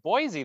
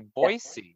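First: The second syllable does not start with s. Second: The second syllable starts with an s sound. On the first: The speaker calls it wrong. "I think I've been saying it Boise the whole time" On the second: The speaker calls it right. "I just heard you say Boise"

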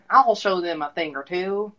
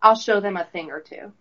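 First: It is said in a put-on old Texan accent. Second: It is read in the speaker's ordinary accent.

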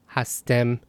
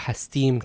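First: The last syllable has an 'eh' vowel. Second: The last syllable has an 'ee' vowel. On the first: "While in Dari and Tajik, it's em" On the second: "in Iran, it's im"

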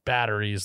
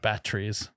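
First: The middle consonant sounds like a soft D. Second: The middle consonant is a clear T sound. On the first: "like with D's" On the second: "Not batteries"

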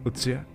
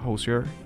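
First: The name is pronounced the German way. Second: The name is pronounced the American English way. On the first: "se pronunciaría Utzia en alemán o algo así" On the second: "Me imagino que es estadounidense, así que se pronuncia [name]"

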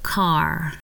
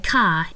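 First: The word ends with an r sound. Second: The word ends without an r sound. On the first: This is the way it is said in the United States. "instead of car" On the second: This is the standard Australian English way. "we say car"

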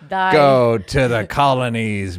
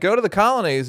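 First: It is said in a rough pirate-like voice. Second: It is said in an old-fashioned 1950s announcer voice. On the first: "That's pirate" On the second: "I did a 50s voice"

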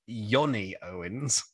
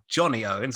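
First: The name is said in a Swedish accent. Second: The name is said in a plain English accent.

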